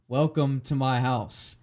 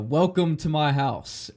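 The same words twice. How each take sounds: First: Said in the usual way. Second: Put-on slow old man quote. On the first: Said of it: "we're like". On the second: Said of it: "he's like".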